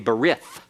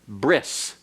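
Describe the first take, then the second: First: It is said with an anglicized pronunciation. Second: It is said with a final s sound. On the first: "That's an anglicized pronunciation that is incorrect Hebrew" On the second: "modern Hebrew uh, pronunciation is bris"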